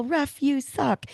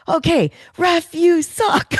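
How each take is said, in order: First: High, drawn-out mock yell, volume held back; retold heckling yell. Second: Loud, high-pitched heckle at the ref; imitating mom's yell. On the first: Speaker retells heckling the ref after that call, mock yell. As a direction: yell at the ref without real loudness. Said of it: "I had to yell". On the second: Daughter imitates her mom yelling at the ref, high mock shout. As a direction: belt it out as a hammed-up outraged mom. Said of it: "she saw that call and she goes".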